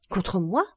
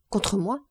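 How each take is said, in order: First: Surprised question with a sharply rising end; astonished. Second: Said in the usual way. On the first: A narrator's reading. Granddaughter learns grandfather is angry with her, astonished. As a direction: repeat it in mild astonishment. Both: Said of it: "reprit Valentine étonnée".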